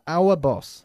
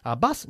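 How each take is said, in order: First: "our boss" with a rounded o in boss; corrected boss vowel. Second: "Our bus" with a short open vowel, like autobus; misheard as bus. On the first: Teacher correcting the student, "our boss" with a round o. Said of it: "o nuestro jefe". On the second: Teacher echoing the student's mistake, "Our bus" with short open vowel. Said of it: "nuestro autobús o nuestro jefe". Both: Shown as a demonstration.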